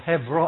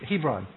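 First: The middle consonant is a v sound. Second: The middle consonant is a b sound. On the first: "I say V. I'm pronouncing it probably in Hebrew" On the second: "but Hebron"

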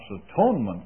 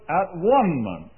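First: The word is said with its usual pronunciation. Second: The word is split into at, one, ment. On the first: The speaker calls it right. "pronounce atonement correctly" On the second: The speaker calls it wrong. "I pronounced it at-one-ment"

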